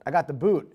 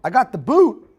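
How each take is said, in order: First: Said in the usual way. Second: "boot" sung out high and much louder on a rise; big reveal. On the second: Acted. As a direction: announce it like a punchline, much louder. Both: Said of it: "Ready for it?".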